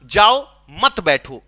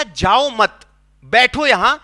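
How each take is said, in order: First: जाओ set apart, then मत बैठो together; pause after जाओ. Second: जाओ मत run together, a break, then बैठो यहां; group मत with जाओ, pausing before a loud बैठो; pause after मत. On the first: Teacher shows the misheard order to leave, pausing after जाओ. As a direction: slowly split off जाओ and group मत with बैठो. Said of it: "मैं सुना". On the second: Teacher shows the intended order to stay, pausing after मत. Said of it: "उसने कहा". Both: Shown as a demonstration.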